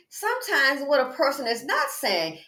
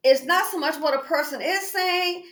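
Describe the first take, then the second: First: NOT punched as the contrast; stress on NOT. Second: IS leaned on, higher pitched; what a person "is" saying, with weight on IS; stress on IS. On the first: Making a point about unspoken things, stress on NOT. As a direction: lean on "not", then let the line fall. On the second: Making a point about unspoken things, stress on IS. Contrasting said with unsaid. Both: Shown as a demonstration.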